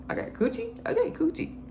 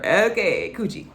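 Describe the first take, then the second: First: High playful. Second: Said in the usual way. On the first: Retold or imitated. Mimicking saying coochie playfully.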